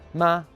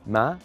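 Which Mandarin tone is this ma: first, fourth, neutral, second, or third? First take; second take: first; second. First: The pitch stays high and level. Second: The pitch rises from low to high.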